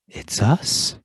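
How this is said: It is said with surprise.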